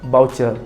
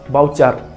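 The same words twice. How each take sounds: First: The last syllable sounds like 'cer'. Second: The last syllable sounds like 'car'. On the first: The speaker calls it wrong. "bukannya voucher" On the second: The speaker calls it right. "ejaan yang betul bagi voucher ialah B A U C A R"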